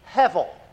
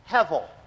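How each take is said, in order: First: The middle consonant is a V sound. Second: The same.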